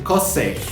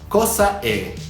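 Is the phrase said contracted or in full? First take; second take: contracted; full. First: The words merge, dropping the final a. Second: Both words are said fully, with separate vowels. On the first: "te van a decir cos'è" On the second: "en lugar de decírtelo así"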